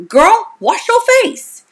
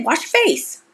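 First: Put-on much higher, slower "Girl, wash your face"; playful sassy reprimand; sassy girlfriend scolding. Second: Said in the usual way. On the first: Shown as a demonstration. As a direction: tease her like a bossy best friend.

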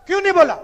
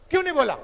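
First: Louder, with high pitch on नहीं; louder insistent repeat. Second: Said in the usual way. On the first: Real, not acted. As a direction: hammer the question home, louder. Rhetorical question repeated louder.

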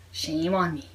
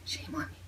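First: Said in the usual way. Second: Whispering "Shame on me" under breath; whispered. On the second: Real, not acted.

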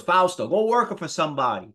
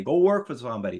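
First: Imitating an Italian-born father; Italian accent. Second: Said in the usual way. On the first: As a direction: put on Dad's Italian accent. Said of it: "with this Italian accent". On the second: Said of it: "He said".

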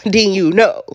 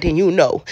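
First: "then you know" broken up by a real laugh; a knowing chuckle on "then you know". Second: Said in the usual way. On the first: Real, not acted.

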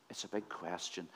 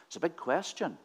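First: "It's a big question" repeated much softer and lower; hushed, lower echo with "big" still stressed. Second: "big" leaned on, falling at the end; emphatic statement with "big" stressed. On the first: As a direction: drop right down, almost to yourself. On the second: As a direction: hit "big" in "It's a big question". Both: Shown as a demonstration.

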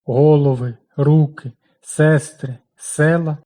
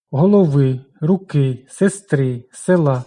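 First: Голови, руки, сестри, села with stress on the stem: го́лови, ру́ки, се́стри, се́ла, said slowly; наголос на основі; stress shows plural nominative. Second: Голови, руки, сестри, села with stress on the ending: голови́, руки́, сестри́, села́; наголос на закінченні; stress shows singular genitive. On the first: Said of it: "називний відмінок множини". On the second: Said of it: "це родовий відмінок однини". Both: Shown as a demonstration.

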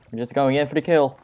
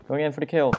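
First: Fast, pumped-up battle call; psyched charge. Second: Said in the usual way. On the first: Acted. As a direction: rush into it, hyped. Charging a mob.

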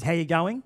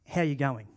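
First: Said in the usual way. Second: Lower, softer, really asking; sincere question. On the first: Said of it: "when someone says". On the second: Retold or imitated.

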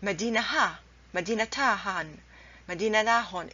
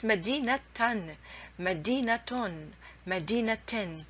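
First: Medina followed by separate "ha", "ta han", "la hon", h sounded; wrong ha endings. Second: Medina linked to "tan", "ton", "ten", t sounded each time; correct ta endings. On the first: Teacher lists forbidden forms, Medina with ha-endings. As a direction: put an h syllable after Medina each time. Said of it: "you cannot say". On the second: Teacher lists correct forms, Medina with ta pronounced. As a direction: end Medina on t plus each tanween. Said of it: "So you have to pronounce". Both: Shown as a demonstration.

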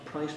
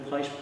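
The two takes are said the same way.

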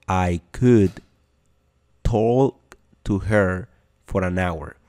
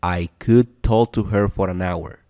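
First: Slow, pause after could; slow teacher model line; slow, split demo. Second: Said in the usual way. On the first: Shown as a demonstration. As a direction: drag it out for learners to copy.

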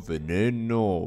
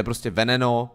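First: "Veneno" drawn out slowly with a stretched middle; trying out pronunciation. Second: Said in the usual way. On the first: Shown as a demonstration. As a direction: stretch the middle of "Veneno", unsure how it reads. (protáhle vyslovené „Veneno“, zkusmo) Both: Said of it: "jak se to čte".

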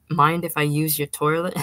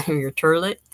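First: Said in the usual way. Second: Turlet said with a laugh, toilet as tur-let; joking turlet. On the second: A narrator's reading. Beery fiancé joking at the bathroom door, saying turlet laughing.

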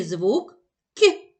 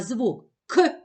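First: "К" softened, palatalized like "кь" with the tongue raised; soft K sound. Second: "К" as a hard, plain k, not softened; hard K sound. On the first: Teacher shows children the softened "К" next, palatal and light. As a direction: give the soft "К", a light y-glide after it. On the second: Teacher shows children the hard sound "К" first, crisp and plain. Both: Shown as a demonstration. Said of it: "Промов, будь ласка, звук К".

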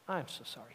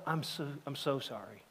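First: Quieter still, "I'm so sorry" trailing off; fading apology. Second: Softer, subdued "I'm so sorry"; a grieving father apologizing, softly; softly retold apology. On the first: Retold or imitated. Grieving father apologizing again, fading to near silence. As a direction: let the apology fade away. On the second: Grieving father on the bus apologizing, hushed. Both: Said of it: "I'll go".

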